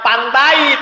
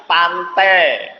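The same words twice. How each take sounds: First: "pantai" dengan bunyi akhir "ai" penuh; diftong utuh. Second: "pantai" diucapkan "pante", akhirnya e panjang; diftong diluruskan. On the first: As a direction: ucapkan "pantai" persis ejaannya. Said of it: "jangan ngomongnya pantai". ("pantai" harfiah, a-i terdengar jelas) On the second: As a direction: luruskan "ai" pada "pantai" menjadi "e". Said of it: "kemudian diluruskan". ("pantai" pelan dengan akhir "-te") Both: Shown as a demonstration.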